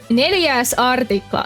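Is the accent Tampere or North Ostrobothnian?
Tampere. It sounds like a Tampere dialect.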